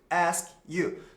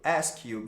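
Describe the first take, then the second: First: The two words are said separately. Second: The two words run together as one. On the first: "A gente aprende que ask you" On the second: "eles juntam ask you, ask you, vira uma palavra só"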